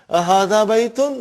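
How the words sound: The voice rises like a question. The speaker calls it right.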